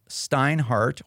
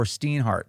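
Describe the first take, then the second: First: "Steinhardt" with first syllable like "stine"; alternate pronunciation. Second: "Steinhardt" with first syllable like "steen"; alternate pronunciation. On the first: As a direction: say "Steinhardt" rhyming its start with "fine". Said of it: "forgive me for mispronouncing your name once". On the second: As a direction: say "Steinhardt" starting like "steen", long ee. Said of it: "getting it right for once". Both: Shown as a demonstration.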